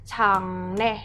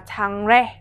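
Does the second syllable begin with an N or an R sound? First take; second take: N sound; R sound. First: The second syllable begins with an N sound. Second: The second syllable begins with an R sound. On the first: The speaker calls it right. "Từ này chúng ta sẽ đọc như thế nào đấy? Chẳng nè" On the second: The speaker calls it wrong. "Chúng ta sẽ không đọc là chẳng re"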